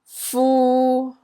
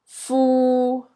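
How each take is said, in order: First: The syllable is said in Cantonese tone three. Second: The syllable is said in Cantonese tone three.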